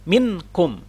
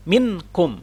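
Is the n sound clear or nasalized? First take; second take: clear; clear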